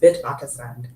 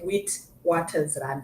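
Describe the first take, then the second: First: The W letters are said as v sounds. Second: The W letters are said as English w sounds. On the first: This is the Afrikaans way of saying it. "because it's Afrikaans, it's Witwatersrand" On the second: This is how the spelling reads. "the spelling is actually Witwatersrand"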